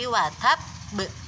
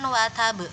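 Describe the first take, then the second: First: The consonant is pressed and doubled. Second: The consonant is short and single. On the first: The speaker calls it right. "karena ada tasydidnya, maka harus ditekan" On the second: The speaker calls it wrong. "bukan watab"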